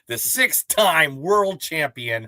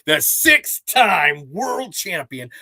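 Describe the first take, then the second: First: It is said at normal volume. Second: It is said much louder.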